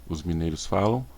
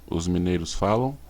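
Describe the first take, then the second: No difference in how they are said.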